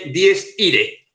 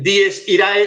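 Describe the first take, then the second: First: The last word ends with a plain 'e'. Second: The last word ends with an 'ae' sound. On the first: This is how it is actually said. "se dice" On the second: This is how it is spelled. "se escribe"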